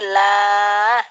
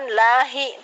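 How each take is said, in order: First: The word is stopped without a final vowel. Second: The word ends with a short vowel sound. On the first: The speaker calls it right. "tapi la, ... dihentikan" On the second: The speaker calls it wrong. "bukan lahi"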